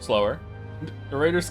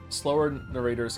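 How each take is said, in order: First: Slower stands alone before a pause, then narrators. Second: Slower runs straight into narrators without a break. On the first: Slower is a direction to the reader. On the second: Slower describes the narrators.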